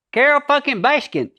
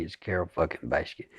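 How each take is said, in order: First: High, loud, nasal "Carole fucking Baskin"; performative Joe twang. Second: Low, soft, quick "Carole fucking Baskin"; dropped, offstage Joe. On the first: Actor demonstrates Joe's stage voice, high and nasal, loud. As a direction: belt it high in the sinuses like a showman. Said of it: "up in the nasal area". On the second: Actor shows Joe's private, lower voice, quiet and quick. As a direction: let it sink back into the throat. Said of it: "lost his performative thing". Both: Shown as a demonstration.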